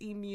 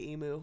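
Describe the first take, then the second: First: The word ends with a 'you' sound. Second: The word ends with a plain 'oo' sound. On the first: The speaker calls it right. "is the correct way. ... Like you at the end" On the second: The speaker calls it wrong. "in America here we, we say emu. We're we're wrong"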